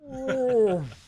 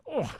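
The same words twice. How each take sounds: First: It is said slowed down, drawn out. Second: It is said at normal speed.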